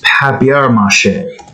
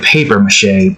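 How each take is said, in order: First: The first part sounds like the French 'papier'. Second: The first part sounds like the English 'paper'. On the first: The speaker calls it right. "but it's papier-mâché" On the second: The speaker calls it wrong. "before I thought it was like paper-mâché"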